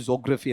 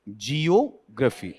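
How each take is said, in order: First: The word begins with a single 'jo' sound. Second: The word begins with a separate 'jee-o' sound. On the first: The speaker calls it wrong. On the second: The speaker calls it right.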